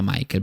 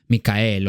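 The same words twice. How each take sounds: First: The name is said in a non-German way. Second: The name is said in a German way. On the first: "no se pronunciará Michael porque es un nombre alemán" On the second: "será Michael o como sea"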